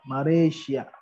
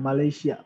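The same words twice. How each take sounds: First: The word is said with an R sound. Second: The word is said with an L sound. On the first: The speaker calls it right. "karena orang Jepang nggak bisa ngomong L" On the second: The speaker calls it wrong. "bukan Malaysia"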